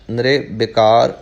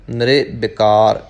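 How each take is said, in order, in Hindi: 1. छोटी इ मात्रा र के ठीक बाद आती है। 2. छोटी इ मात्रा र के ठीक बाद आती है।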